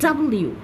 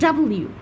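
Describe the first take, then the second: The two takes are said the same way.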